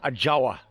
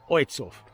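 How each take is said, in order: First: The name is read by English spelling rules. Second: The name is said with its Polish pronunciation. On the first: The speaker calls it wrong. "if you English and you try and pronounce it the way it looks" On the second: The speaker calls it right. "in Polish it's pronounced"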